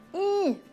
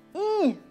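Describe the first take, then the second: The two takes are said the same way.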